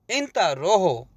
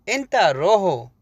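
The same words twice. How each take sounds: The two takes are said the same way.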